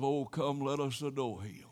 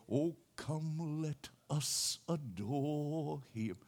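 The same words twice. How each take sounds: First: Said in the usual way. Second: Soft, slow hymn singing; softly sung. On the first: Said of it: "A verse of". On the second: Retold or imitated. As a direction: sing it gently along with her. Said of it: "stuck in there with us".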